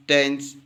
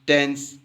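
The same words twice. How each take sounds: The two takes are said the same way.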